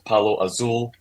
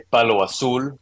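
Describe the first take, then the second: First: It is pronounced with English sounds. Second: It is pronounced with Spanish sounds. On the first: This is the usual way when speaking English. "but in English, I usually just call it palo azul" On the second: This is how native Spanish speakers say it. "in Spanish, they say palo azul, which is a little different"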